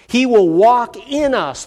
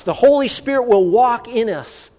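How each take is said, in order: First: Slow solemn emphasis on walk; slow emphatic preaching. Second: Holy lifted higher in a ringing build; higher ringing preacher emphasis on Holy; rising preaching emphasis. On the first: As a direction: stress on walk, slow and weighty. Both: Shown as a demonstration.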